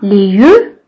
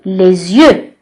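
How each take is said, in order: First: Les and yeux are said without a z link. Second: Les and yeux are joined by a z sound. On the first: The speaker calls it wrong. "Je dis pas" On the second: The speaker calls it right. "mais je lis"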